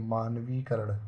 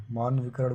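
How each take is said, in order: First: मानवीकरण with long vee; correct pronunciation. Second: मान विकरण with short vi; wrong pronunciation. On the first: Teacher corrects the word, मानवीकरण with lengthened vee. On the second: Teacher rejects the non-word, मान विकरण with short i. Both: Shown as a demonstration. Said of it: "कोई शब्द नहीं है".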